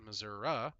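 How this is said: It is said the Missouri country way.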